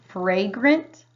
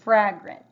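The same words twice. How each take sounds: First: The first vowel is a long A sound. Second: The first vowel is a short A sound. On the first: "The first one would be the long A" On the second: "The second one would be the short A, saying ah"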